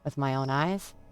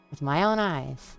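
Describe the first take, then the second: First: It is said as a question, rising. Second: It is said as a statement, falling.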